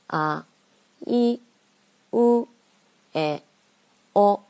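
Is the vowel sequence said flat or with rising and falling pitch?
rising and falling. The vowels are said with rising and falling pitch.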